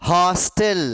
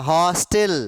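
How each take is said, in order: No difference in how they are said.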